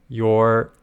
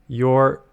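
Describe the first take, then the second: The two takes are said the same way.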